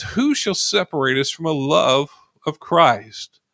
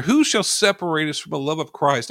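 First: Each word of "Who shall separate us from a love of Christ?" drawn out slowly and weighed; slow emphatic reading. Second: Said in the usual way. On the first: Shown as a demonstration. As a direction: read the verse slowly, leaning on every word. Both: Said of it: "It says".

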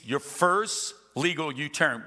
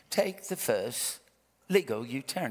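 First: Said in the usual way. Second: Measured British sat-nav voice; British accent. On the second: Retold or imitated. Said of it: "it's a British accent".

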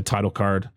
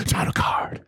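First: Said in the usual way. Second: Playful whispered echo. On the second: Pretend. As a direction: whisper it like a caption.

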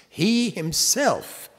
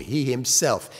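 First: "He himself" slow, much higher, with HE hit hard; stress on HE. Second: Said in the usual way. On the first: Shown as a demonstration. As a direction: lean hard on "He", drawn out. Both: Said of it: "it's emphatic in the Greek".

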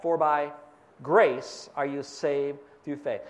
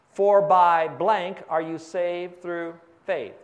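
First: Slower, with grace stressed; lower, deliberate completion of the verse; answer filled in. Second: Slow, leaving a gap for the congregation; drawn-out prompt for the crowd to fill in; fill-in-the-blank pause. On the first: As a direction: land on the word grace as the answer. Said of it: "What's that?". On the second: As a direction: read it slowly and leave the blank hanging. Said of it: "Help me with this verse". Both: Shown as a demonstration.

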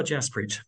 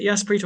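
First: Jaspreet said with a hard opening J, as in "jazz"; J pronunciation. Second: Jaspreet said with an opening Y sound, "Yaspreet"; Y pronunciation. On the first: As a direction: start Jaspreet on a J sound, not Y. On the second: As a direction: begin Jaspreet like "yes", not "jazz". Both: Shown as a demonstration. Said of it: "is it Jaspreet or Jaspreet".

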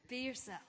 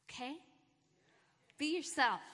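First: Said in the usual way. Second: Louder, higher rallying shout of encouragement; pep talk cheer. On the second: Real, not acted. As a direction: pump them up like a coach. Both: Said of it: "I'm giving you guys a pep talk".

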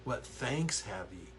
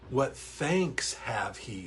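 First: "ye" said as "you"; corrected King James reading. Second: "he" for ye; reading "What thanks have he" with the word "he"; slow, careful King James line with "he"; misread he. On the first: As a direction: read "What thanks have ye" with ye sounded like you. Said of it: "Joan. Thank you, Joan". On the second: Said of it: "uh, have he". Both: Shown as a demonstration.

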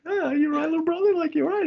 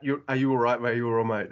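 First: Much higher, cooing big-brother concern; big brother fussing over little brother. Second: Said in the usual way. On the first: Retold or imitated. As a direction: coddle the little brother teasingly. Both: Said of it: "a big brother going to a little brother".

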